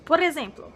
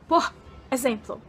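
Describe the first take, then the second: First: The two words are run together as one. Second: The two words are said separately, not joined. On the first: The speaker calls it right. "Você faz um link, você emenda por exemplo" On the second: The speaker calls it wrong. "você não fala por exemplo"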